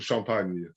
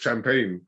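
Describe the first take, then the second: First: It is said with a French accent. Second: It is said with an English accent. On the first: "that's saying it with a French accent" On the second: "you could say that in the English way if you wanted"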